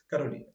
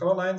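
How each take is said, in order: First: The name is pronounced with Portuguese sounds. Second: The name is pronounced with English sounds. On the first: "se for ou em norueguês ou em português" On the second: "se for em inglês"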